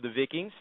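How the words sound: The word is said with a Scandinavian pronunciation.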